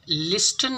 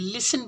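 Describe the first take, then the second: First: A t sound is pronounced in the middle. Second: No t sound is pronounced in the middle. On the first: The speaker calls it wrong. "इसको हम लिस्टन नहीं बोलेंगे" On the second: The speaker calls it right. "लिसन बोलेंगे"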